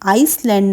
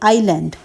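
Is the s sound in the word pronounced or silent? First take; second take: pronounced; silent. First: The s sound is pronounced in the middle. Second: The s sound is left silent. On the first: The speaker calls it wrong. "आइसलैंड ना पढ़कर" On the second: The speaker calls it right. "एस जो है वो silent है"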